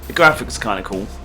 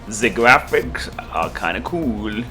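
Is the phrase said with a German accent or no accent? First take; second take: no accent; German accent. First: It is said in the speaker's ordinary accent. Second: It is said with a slight German accent.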